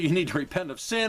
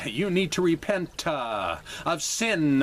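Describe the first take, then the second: First: It is said in a plain, straight reading. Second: It is said in a mocking, preachy imitation. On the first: It simply states the message. "without being such a smart aleck" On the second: It mimics a preacher's manner. "such a smart aleck"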